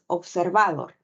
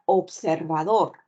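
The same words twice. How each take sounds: First: The stress falls on a non-final syllable. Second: The stress falls on the last syllable. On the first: The speaker calls it wrong. "No dices observador" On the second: The speaker calls it right. "El acento lo ubicas en la última sílaba"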